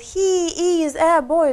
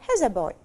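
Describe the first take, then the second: First: He and is are said as separate words. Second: He and is merge into one quick syllable. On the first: "полный вариант" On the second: "Все быстро. ... сокращенный вариант"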